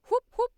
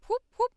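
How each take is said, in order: The two takes are said the same way.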